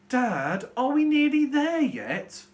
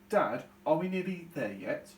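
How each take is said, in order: First: It is said in a whining, moaning tone. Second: It is read in a plain, neutral tone.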